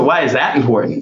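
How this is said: The question sounds challenging and judgmental. The asker doubts the point matters. The speaker calls it wrong.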